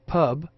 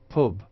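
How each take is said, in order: First: The vowel is open and central, as in cup. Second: The vowel is rounded and close, as in foot. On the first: "R P pub" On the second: "Northern pub"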